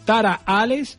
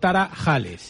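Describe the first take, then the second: First: The middle h is silent. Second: The middle h is pronounced like a throaty j. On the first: "siempre ha sido Tara Ales... H intercalada. Sin pronunciar" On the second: "utilizamos la J como H"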